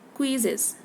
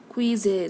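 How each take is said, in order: First: The middle vowel is a quick, faint schwa. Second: The middle vowel is full and emphasized. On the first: The speaker calls it right. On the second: The speaker calls it wrong.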